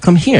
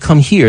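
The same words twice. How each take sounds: First: It is said in a Southern Black accent. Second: It is said in a plain standard accent. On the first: "They said"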